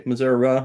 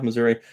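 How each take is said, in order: First: Missouri with a final "uh"; Missouri ending in "uh". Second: Missouri with a final "ee"; Missouri ending in "ee". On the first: Streamer trying out both versions, Missouri ending in "uh". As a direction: say Missouri as "muh-ZUR-uh". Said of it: "Do you say Missouri or you". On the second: Streamer trying out both versions, Missouri ending in "ee". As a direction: say Missouri as "muh-ZUR-ee". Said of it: "or you say Missouri?". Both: Shown as a demonstration.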